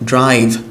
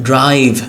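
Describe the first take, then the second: No difference in how they are said.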